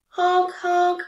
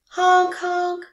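First: Loud, high goose honk, a touch different. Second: Loud, high honk like a goose. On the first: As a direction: honk again like the goose outside. Goose honk imitated again. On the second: Goose honk imitated in story. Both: A narrator's reading.

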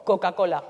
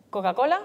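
First: "Coca-Cola" with each c firmly sounded; marked consonants. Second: Said in the usual way. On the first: Shown as a demonstration. Coach asking listeners to compare, "Coca-Cola" with marked consonants. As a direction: hit every hard c in "Coca-Cola". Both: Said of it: "porque marco las consonantes".

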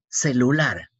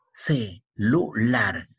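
First: Said in the usual way. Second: "Celular" stretched slowly into its syllables. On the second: Shown as a demonstration. Teacher spelling out "Celular" slowly so the pupil hears each syllable.

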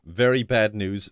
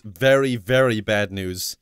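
First: Said in the usual way. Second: Very repeated and leaned on, slower; stress on Very. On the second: Shown as a demonstration. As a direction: draw out "Very, very" for weight.

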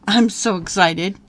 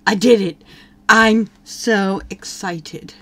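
First: Excited. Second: A slow, lightly voiced boy, a touch louder; voicing the boy's delight, drawn out; mock sim boy. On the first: Real, not acted. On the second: Player voicing the sim boy's joy, slow and mock-excited. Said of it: "He's like".

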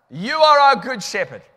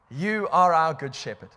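First: Loud prayer. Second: Said in the usual way. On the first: Real, not acted. Praying aloud with full force.

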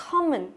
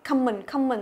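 First: "common" as "co-mən", rounded o; short o in first syllable of "common"; correct short O. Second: "common" as "cam-mừn"; first syllable of "common" with an á; wrong A vowel. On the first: Teacher correcting students, short O vowel. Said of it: "Âm O, nhớ chưa?". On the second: Teacher quoting Hanoi students' mistake, A vowel. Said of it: "rất là âm Á rồi". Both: Shown as a demonstration.

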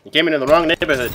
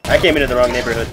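First: Loud and fast, punching "wrong"; stress on wrong. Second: Loud and fast, punching "came"; stress on came. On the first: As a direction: shout it, leaning hard on "wrong". Quoting a meme line. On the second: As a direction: shout it, leaning hard on "came". Self-mocking repeat. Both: Acted.

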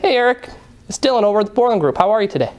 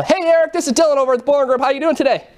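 First: More restrained cold-call greeting; easygoing phone opener, only lightly lifted; tone-matching sales greeting. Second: High, fast, over-eager cold call; peppy, high-pitched telemarketer opener; mismatched sales greeting. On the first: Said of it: "I'm gonna adjust instantly". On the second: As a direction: pitch it up and rush the caller's greeting. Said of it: "I'm repulsive to him". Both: Shown as a demonstration.

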